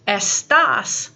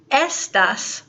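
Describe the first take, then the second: First: Estás with the punch on the final "tás"; stress on second syllable. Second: Estas with the punch on the opening "Es"; stress on first syllable. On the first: Teacher showing why the written accent matters, Estás stressed on last syllable. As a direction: say Estás as es-TAHS, stressing the end. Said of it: "That accent is important". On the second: Teacher showing the word without an accent, Estas stressed on first syllable. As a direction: say Estas as ES-tahs, stressing the start. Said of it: "without the accent". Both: Shown as a demonstration.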